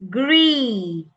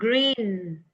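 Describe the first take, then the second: First: The syllable ends on the vowel, no N. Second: The syllable ends with an N sound. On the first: The speaker calls it right. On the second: The speaker calls it wrong.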